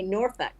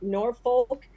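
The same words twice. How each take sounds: First: The last syllable is a reduced 'fuck' sound. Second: The last syllable is a full 'folk' sound. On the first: The speaker calls it right. "you say Norfolk" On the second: The speaker calls it wrong. "you know how you don't say Nor- Norfolk"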